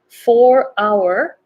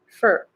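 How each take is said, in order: First: Both words are said fully and separately. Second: The words merge into one short syllable.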